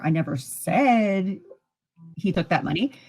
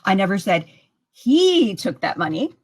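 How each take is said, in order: First: The stress falls on the word said. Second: The stress falls on the word he. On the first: It was thought or written, not said. "that could mean I thought it, I wrote it" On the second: Somebody else took it. "That could mean that somebody else took it"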